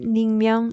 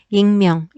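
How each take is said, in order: First: The word begins with an N sound. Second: The word begins with a vowel sound. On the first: The speaker calls it wrong. "이렇게 발음하지 않는다고" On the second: The speaker calls it right. "익명 이렇게 얘기하지"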